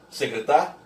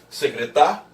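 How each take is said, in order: The two takes are said the same way.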